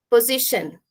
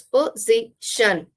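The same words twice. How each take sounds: First: Said in the usual way. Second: "position" slowly, in three separate syllables; split into syllables. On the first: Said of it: "there are some words like". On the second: Shown as a demonstration. Teacher counting out three syllables for learners, slowly separated. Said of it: "there are three syllables".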